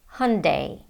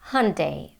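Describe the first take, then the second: First: It is said with an American pronunciation. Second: It is said with an American pronunciation.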